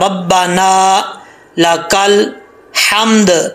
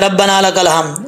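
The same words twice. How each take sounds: First: The 'b' is doubled and the long vowel is held. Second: The 'b' is short and the vowel is not lengthened. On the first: The speaker calls it right. "दो बार पढ़ा जाता है... अलिफ लंबा करना है" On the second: The speaker calls it wrong. "ऐसे नहीं पढ़ना भाई"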